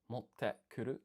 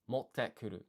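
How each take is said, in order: First: There is a short pause before kuru. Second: There is no pause before kuru. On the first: The speaker calls it wrong. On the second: The speaker calls it right.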